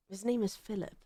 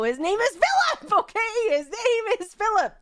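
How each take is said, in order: First: Softly trying out the name "Philip"; quiet musing. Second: "His name is Philip" higher and louder, firm; insistent. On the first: Deciding the roommate's name, quietly trying it out. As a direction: murmur "His name is Philip" to yourself. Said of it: "naming the character". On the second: Overruling chat's name ideas, louder insistence. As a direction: insist "Philip" over the chat. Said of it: "God damn it, guys". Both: Real, not acted.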